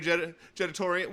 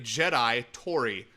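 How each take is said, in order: First: The name runs together as one word. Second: The name is split into two separate words. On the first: The speaker calls it wrong. "I said it wrong" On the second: The speaker calls it right. "That's a three part name there"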